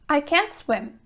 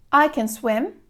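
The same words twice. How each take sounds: First: "can't" stressed with a falling tune. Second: "can" said short and light, stress on "swim"; can unstressed. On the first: Teacher showing students a stressed "can't" in "I can't swim". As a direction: lean on "can't" and let it fall. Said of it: "we emphasize the verb can't". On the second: Teacher showing students an unstressed "can" in "I can swim". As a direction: keep "can" weak and quick. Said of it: "the verb can remains unstressed". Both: Shown as a demonstration.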